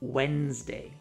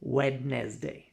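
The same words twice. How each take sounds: First: The D is silent and a syllable dropped. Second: Every letter is pronounced, including the D. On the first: The speaker calls it right. "Just pretend the D doesn't exist" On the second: The speaker calls it wrong. "The common mistake"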